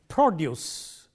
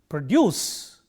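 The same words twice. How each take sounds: First: The stress is on the first syllable. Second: The stress is on the second syllable. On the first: It is used as a noun. "Stress on the first syllable, used as a noun" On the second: It is used as a verb. "Stress on the second syllable, used as a verb"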